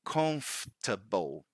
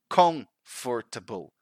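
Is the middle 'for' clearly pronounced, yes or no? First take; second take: no; yes. First: The middle 'for' syllable is reduced away. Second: The middle 'for' syllable is pronounced fully. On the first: The speaker calls it right. "the right way is comfortable ... we actually don't pronounce these two letters here, O, R" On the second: The speaker calls it wrong. "Or if they say with the right emphasis in the first syllable, they still pronounce that syllable, four. ... And that's not right"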